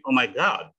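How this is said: The vowel in god sounds open, like ah. "Kalau orang American bilang OMG"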